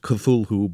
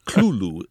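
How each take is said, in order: First: The first syllable is said plainly, not coughed. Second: The first syllable is coughed or barked out. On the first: "It looks as if it should be pronounced Cthulhu" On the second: "it's really two syllables, and the first one is sort of coughed or barked out"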